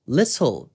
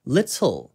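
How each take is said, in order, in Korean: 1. T 소리는 또렷하고 분명하게 발음됩니다. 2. T 소리는 또렷하고 분명하게 발음됩니다.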